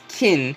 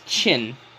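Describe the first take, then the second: First: The name begins with a k sound. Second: The name begins with a ch sound. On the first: It is how English speakers say it. "the English pronunciation is kin" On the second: It is how Chinese speakers say it. "the correct Chinese pronunciation is chin"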